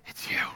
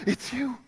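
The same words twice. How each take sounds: First: Soft, stunned quiet; quiet, awed recognition; hushed. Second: Higher, soft stunned echo; higher hushed disbelief. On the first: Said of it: "she says". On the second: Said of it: "They're like". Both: Retold or imitated.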